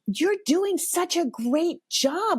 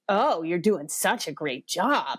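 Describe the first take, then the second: First: It sounds sincere and friendly. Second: It sounds sarcastic and mocking.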